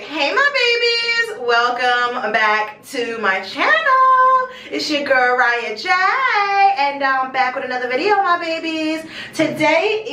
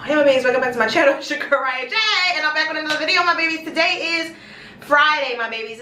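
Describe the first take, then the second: First: Slow, stretched-out vlog intro; drawn-out channel greeting. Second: Quick run-through of the channel greeting; rapid intro rerun. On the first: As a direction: draw out the greeting to the viewers. Channel intro, first full take. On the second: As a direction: rattle off the vlog greeting. Runs through intro a second time. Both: Real, not acted.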